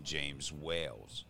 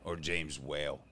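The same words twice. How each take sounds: First: "Whales" said with a final s like the plural; "James Whales" with an extra s; wrong name. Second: "Whale" said with no s at the end; "James Whale" said cleanly without an s; corrected name. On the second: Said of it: "not Wales". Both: Real, not acted.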